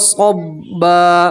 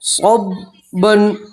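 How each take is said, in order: First: The word ends with a long a vowel. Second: The word ends with an n sound. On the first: "वफ़ करेंगे तो दो ज़बर की तनवीन को अलिफ और ज़बर से बदलेंगे" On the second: "दो ज़बर की तनवीन"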